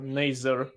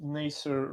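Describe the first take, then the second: First: Nazar said the Russian way as nah-ZAR; Russian pronunciation. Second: Nasir said slowly as nah-SEER; Nasir pronunciation. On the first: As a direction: Nazar with a Russian A in both syllables. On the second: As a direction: stretch out Nasir, stress on the second syllable. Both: Shown as a demonstration. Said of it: "everyone in Russian community, named Nasir like".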